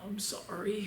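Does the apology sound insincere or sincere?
sincere. The apology sounds warm and sincere. The speaker truly regrets it. "his tone of voice wasn't like, oh"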